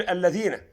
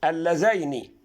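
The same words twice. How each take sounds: First: الذين said aleðina, plural without the ya; الذين read as the plural by mistake; wrong reading. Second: اللذين said allezeini with sukun on the ya; اللذين, dual, ya held silent; correct reading. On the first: Teacher warns viewers against الذين, said aleðina. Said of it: "وهتقول". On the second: Teacher gives the correct dual اللذين, allezeini. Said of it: "الياء عليها إيه؟ سكون". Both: Shown as a demonstration.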